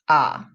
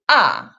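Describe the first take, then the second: First: The pitch dips low. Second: The pitch falls sharply from high. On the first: "The third tone, 三声" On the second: "The fourth tone, 四声"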